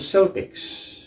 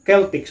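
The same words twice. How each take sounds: First: The word begins with a soft S sound. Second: The word begins with a hard K sound. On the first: It names the sports team. "The soft C sound is usually reserved for sports team now" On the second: It refers to the ancient people and culture. "another way to pronounce it is Celtics"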